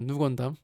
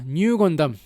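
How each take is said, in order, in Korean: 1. 첫 음절은 평범한 'n' 소리로 시작해요. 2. 첫 음절은 'ny' 소리로 시작해요. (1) "사실은 이건 누 건담입니다" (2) "뉴 건담이라고 하고 있고"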